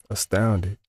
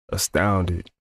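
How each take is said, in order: No difference in how they are said.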